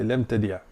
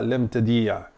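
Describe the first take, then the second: First: The i vowel is kept short. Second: The i vowel is held long. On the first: The speaker calls it right. "on enlève le i plutôt ici" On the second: The speaker calls it wrong. "c'est pas lem tadi'a"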